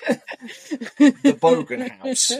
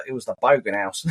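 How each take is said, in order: First: Very slow, high, stretched proclamation; hammed-up Bogan boast. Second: Deadpan. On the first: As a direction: drag it out like a grand declaration. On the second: Retold or imitated. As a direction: say it with a straight face. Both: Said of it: "they do more deadpan faces".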